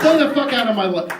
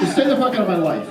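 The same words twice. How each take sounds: First: Louder take. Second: Said in the usual way. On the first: Acted. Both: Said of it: "Hold on a second".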